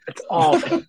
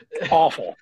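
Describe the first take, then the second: First: "awful" jumps way up in a high squeal; exasperated high-pitched "awful"; squeaky high repeat. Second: Said in the usual way. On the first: Real, not acted.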